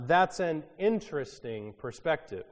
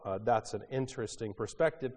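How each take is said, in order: First: Polite skepticism. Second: Said in the usual way. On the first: Retold or imitated. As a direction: feign polite interest. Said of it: "one of my favorites". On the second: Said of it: "which basically means we think you're nuts".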